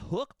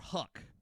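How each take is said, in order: First: The vowel rhymes with the one in book. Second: The vowel rhymes with the one in buck. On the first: "is it hook or huck?" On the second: "I've heard people pronounce it huck"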